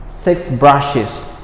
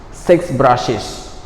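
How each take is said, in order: Both takes have the same delivery.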